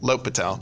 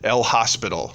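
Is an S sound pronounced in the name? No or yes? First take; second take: no; yes. First: It sounds like low-pit-al, with no S sound. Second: The H and S are sounded, like hospital. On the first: The speaker calls it right. "we pronounce it L'Hôpital. Just say low and then say pit and then talk about your friend Al" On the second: The speaker calls it wrong. "If you ever call it El Hospital, your math teacher will punch you"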